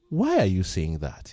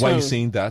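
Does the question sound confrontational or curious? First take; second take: curious; confrontational. First: The question sounds calm and genuinely curious. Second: The question sounds challenging and confrontational. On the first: The speaker genuinely wants to understand. The speaker calls it right. "there's a difference between the tone" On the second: The speaker is challenging the other person. The speaker calls it wrong. "not in a confrontational manner"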